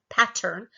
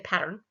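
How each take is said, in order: First: The middle consonant is a clear T sound. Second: The middle consonant is a quick flap. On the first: The speaker calls it wrong. "We're not saying pattern" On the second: The speaker calls it right. "We usually say pattern"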